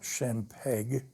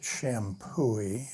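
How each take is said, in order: First: The name ends with an 'eg' sound. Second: The name ends with an 'ee' sound. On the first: The speaker calls it wrong. "and not Champeg" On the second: The speaker calls it right. "I'm told you pronounce it Shampooey"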